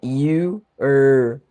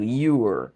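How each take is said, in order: First: The two parts are said slowly and separately. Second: The two parts are said quickly as one. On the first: "você usa you e junta com er" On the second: "Aí você fala rápido"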